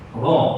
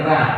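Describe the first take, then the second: First: The R syllable is heavy, with a rounded vowel. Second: The R syllable is light, with an open vowel. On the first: The speaker calls it right. "kita baca ro" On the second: The speaker calls it wrong. "Kita tak baca ra"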